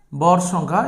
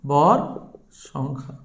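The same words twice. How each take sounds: First: Said in the usual way. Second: ভর, a pause, then a much softer, lower সংখ্যা; slow dictation. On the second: Real, not acted. Teacher repeating the term's name for students, slow dictation. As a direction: separate ভর from সংখ্যা, letting the second word drop. Dictates term while writing it.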